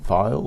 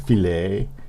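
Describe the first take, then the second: First: The word is pronounced in the normal way. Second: The word is pronounced in an odd, joking way.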